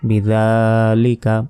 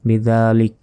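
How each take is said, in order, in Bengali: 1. শব্দটি স্বরবর্ণ দিয়ে শেষ হয়েছে। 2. শব্দটি শুধু ব্যঞ্জনবর্ণ দিয়ে শেষ হয়েছে।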